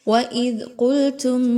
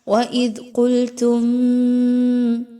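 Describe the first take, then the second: First: The m is said without a nasal hum. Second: The m is held with a nasal hum. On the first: The speaker calls it right. "यहाँ पर किसी तरह का गुन्ना नहीं करना" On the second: The speaker calls it wrong. "ऐसा करना दुरुस्त नहीं होगा"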